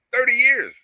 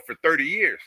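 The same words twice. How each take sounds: First: "thirty years" pitched high and loud, falling at the end; indignant emphatic repeat. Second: "thirty years" slightly raised, first mention; emphasis on THIRTY. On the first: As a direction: hammer "thirty years" home in a raised voice. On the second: First take before emphatic repeat. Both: Real, not acted.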